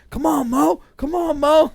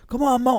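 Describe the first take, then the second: First: Much higher, louder cheering chant; crowd cheering. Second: Higher, louder chant; crowd cheering. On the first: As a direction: egg him on, rising. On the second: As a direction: cheer on the fighter. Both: Retold or imitated. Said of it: "They're calling him".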